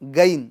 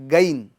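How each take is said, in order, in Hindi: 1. यह hard g stop से शुरू होता है। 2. यह हार्ड g स्टॉप से शुरू होता है।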